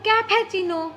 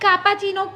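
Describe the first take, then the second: First: The word begins with a 'kef' sound. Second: The word begins with a 'kap' sound. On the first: The speaker calls it right. "Pronounce બરાબર કરો" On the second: The speaker calls it wrong. "Not કાપાચીનો"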